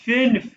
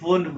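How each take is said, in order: First: The vowel is an 'ee'-like sound. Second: The vowel is a plain 'oo' sound. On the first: The speaker calls it right. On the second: The speaker calls it wrong.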